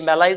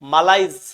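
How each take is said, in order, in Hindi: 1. पहला स्वर 'eh' जैसा बोला जाता है। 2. पहला स्वर 'ah' जैसा बोला जाता है।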